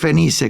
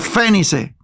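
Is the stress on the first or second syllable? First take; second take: second; first. First: The stress is on the second syllable. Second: The stress is on the first syllable. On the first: The speaker calls it right. "se pudiera decir Fenice, creo" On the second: The speaker calls it wrong. "no tiene acento en la E, no es estrújula"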